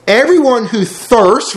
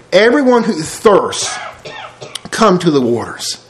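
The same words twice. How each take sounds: First: Slow, weighty reading of each word; slow scripture reading. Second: Slow measured read, stress on Everyone; slow scripture reading. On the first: Preacher reads Isaiah to congregation, slow and weighty. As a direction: lean on Everyone like a preacher reading aloud. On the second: Preacher repeats Isaiah's call, slow and measured. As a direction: read Everyone who thirsts slowly again. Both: Shown as a demonstration.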